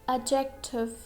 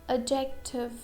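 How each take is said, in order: Both takes have the same delivery.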